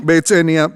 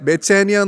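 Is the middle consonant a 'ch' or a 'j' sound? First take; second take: ch; ch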